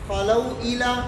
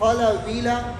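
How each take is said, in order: First: The words join directly, with the glottal catch kept. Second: The consonant runs straight into the next vowel. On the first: "बगैर सकते के" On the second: "नकल हरकत के साथ"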